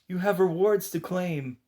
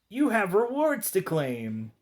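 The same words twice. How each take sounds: First: It is said in the Donnie character voice. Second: It is said in the Mikey character voice. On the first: The speaker calls it right. "and not the Donnie voice" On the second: The speaker calls it wrong. "I said that in the Mikey voice"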